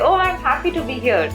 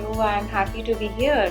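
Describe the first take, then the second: First: It is said brightly, with high energy. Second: It is said flatly, with low energy. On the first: The speaker sounds truly glad to be there. The speaker calls it right. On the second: The speaker does not sound glad to be there. The speaker calls it wrong.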